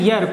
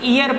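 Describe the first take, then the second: First: The word begins with a y sound. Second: The word begins with a vowel sound. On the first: The speaker calls it right. "इसका sound होता है यर" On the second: The speaker calls it wrong. "कुछ बच्चे इसे ईयर पढ़ देते हैं, जो कि ठीक नहीं है"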